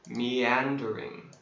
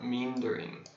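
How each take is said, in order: First: The start splits into two syllables, 'me-an'. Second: The start is one syllable, like 'mean'. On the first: The speaker calls it right. "It's a syllable split. Meandering, four syllables" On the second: The speaker calls it wrong. "This looks like mean, meandering. It's not meandering"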